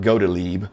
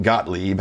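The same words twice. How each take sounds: First: Gottlieb said GOH-tuh-leeb; three-syllable pronunciation. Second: Gottlieb said GOT-leeb; two-syllable pronunciation. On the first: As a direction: say "Gottlieb" with a long O and an extra middle syllable, goat-a-leeb. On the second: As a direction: say "Gottlieb" with a short open first vowel, no middle syllable, got-leeb. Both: Real, not acted. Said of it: "however you say it".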